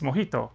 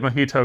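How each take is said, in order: First: It is said with a Spanish-style pronunciation. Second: It is said with an anglicized pronunciation. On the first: The speaker calls it right. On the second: The speaker calls it wrong.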